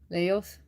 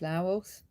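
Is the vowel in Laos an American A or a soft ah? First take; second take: American A; soft ah. First: The vowel is a flat American A. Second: The vowel is a soft, open ah sound. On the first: The speaker calls it wrong. "I'm pronouncing it with an American A" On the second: The speaker calls it right. "I think it'd be more like Laos"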